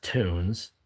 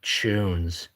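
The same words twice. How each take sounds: First: Tunes said the usual American way, toons; plain tunes. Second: Tunes said as tyoons, with a y glide before the oo; British tunes. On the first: Retelling the British viewer's explanation, plain toons. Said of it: "One is pronounced". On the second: Retelling the British viewer's explanation, light tyoons. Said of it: "and one is pronounced". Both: Retold or imitated.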